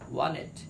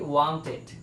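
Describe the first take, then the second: First: The t sound is dropped entirely. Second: The t sound is clearly pronounced. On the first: The speaker calls it right. "Smart speaking এর ক্ষেত্রে বলতে হবে" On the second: The speaker calls it wrong. "আমরা প্রায় সময় শব্দটা পড়ে থাকি"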